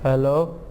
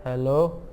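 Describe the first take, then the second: No difference in how they are said.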